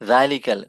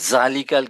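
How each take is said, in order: First: It starts with a soft 'th' as in 'that'. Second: It starts with a buzzing 'z' sound. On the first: The speaker calls it right. "দা" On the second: The speaker calls it wrong. "অনেকে বলবে জালিকাল কিতাব, জালিকা is not right way of pronouncing."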